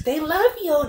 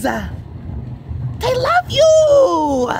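First: Said in the usual way. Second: High, very slow cooing at the pet. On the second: Acted. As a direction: coo They love you like baby talk.

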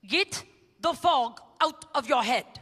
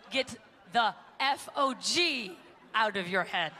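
First: Put-on slow German-accented line, fog sounding rude. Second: Slow, letters F O G spelled one by one. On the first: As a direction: imitate the German speaker saying fog. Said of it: "It's a German accent". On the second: Retold or imitated. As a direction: spell out F O G clearly, with a laugh. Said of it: "he wrote down on the board".

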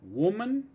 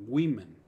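First: Woman with an u sound first, pitched high; woman louder and rising, starting wu; singular demonstrated. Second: Women said as WI-men; women with a short i first, loud; plural demonstrated. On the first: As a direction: say woman as WU-man, raised. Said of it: "cambiar es la pronunciación de la O". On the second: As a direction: punch women, starting with wi. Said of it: "la pronunciación va a ser". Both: Shown as a demonstration.

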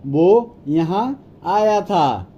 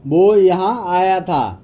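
First: Word by word, with small gaps; teacher's spaced-out demonstration; slow model repeat. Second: Said in the usual way. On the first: Shown as a demonstration. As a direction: separate each word slowly for learners. Slower repeat for learners.

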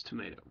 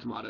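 First: Tomato said tuh-MAY-toh; American tuh-MAY-toh for tomato; long A pronunciation. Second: Tomato said tuh-MAH-toh; broad A pronunciation. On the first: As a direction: say tomato with an "ay" in the middle. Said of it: "It's tomato". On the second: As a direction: say tomato with an "ah" in the middle. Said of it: "It's not tomato". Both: Shown as a demonstration.

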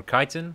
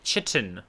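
First: "chitin" said with a hard k, KY-tin; alternative pronunciation. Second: "chitin" said with a soft ch, as in chip; alternative pronunciation. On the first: Gamer offering viewers the other way, "chitin" with hard k. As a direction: say "chitin" starting like "kite". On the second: Gamer offering viewers one way of saying it, "chitin" with ch. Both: Shown as a demonstration. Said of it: "whichever you prefer".

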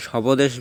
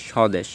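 First: স্বদেশ with the b sounded, shaw-bo-desh; wrong pronunciation. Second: স্বদেশ with silent b, shaw-desh; correct pronunciation. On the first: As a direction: add a "bo" inside স্বদেশ. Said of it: "না, আমরা বলি স্বদেশ". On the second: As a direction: drop the b in স্বদেশ. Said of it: "ব উচ্চারণটা হবে না". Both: Shown as a demonstration.

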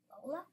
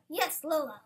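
First: Softer "Lola?" with a rising end; questioning. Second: "Yes, Lola" louder, falling firmly; insistent. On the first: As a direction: question "Lola?" quietly, as if unknown. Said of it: "Did I just hear Bella question Lola". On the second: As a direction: confirm "Yes, Lola" with emphasis. Insists on the dog's name. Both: A narrator's reading.

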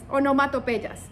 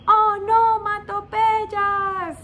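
First: Said in the usual way. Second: Onomatopeyas slow and high; stretched out. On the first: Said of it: "repeats the term". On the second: Shown as a demonstration. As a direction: draw out onomatopeyas, much higher. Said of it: "teacher stresses the term". (onomatopeyas muy lenta y aguda)

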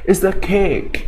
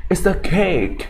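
First: "It's a cake" in a UK accent, higher; British accent. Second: "It's a cake" with the weight on "cake", falling at the end; stress on cake. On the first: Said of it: "สำเนียงแบบ ยูเค". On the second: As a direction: land the stress on the last word "cake". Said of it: "ไปลงพยางค์หนักตัวหลัง". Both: Shown as a demonstration.

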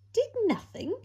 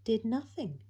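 First: Much higher, louder disbelieving question; shocked repeat, voice leaping up; incredulous echo. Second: Said in the usual way. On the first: A narrator's reading. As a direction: throw it back in total disbelief. Incredulous echo of previous line.

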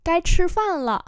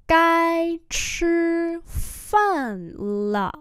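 First: Said in the usual way. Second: High, sustained slow syllables; slow teaching take; slow demonstration. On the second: Shown as a demonstration. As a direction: hold each syllable long. Teacher repeats phrase slowly.

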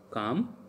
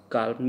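First: Said in the usual way. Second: "Calm" said the French way with the l sounded; French pronunciation. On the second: Shown as a demonstration. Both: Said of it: "Calm means".

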